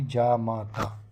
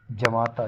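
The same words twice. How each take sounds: First: जा माता stretched slowly, each long aa drawn out; slow long vowels. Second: जमाता said as written, short first a; wrong form. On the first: Teacher stretches जा माता slowly for pupils. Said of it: "तीनों letters में एक एक बड़ा का मात्रा आएगी". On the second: Teacher shows the misspelling: जमाता, short ja. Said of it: "जमाता नहीं". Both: Shown as a demonstration.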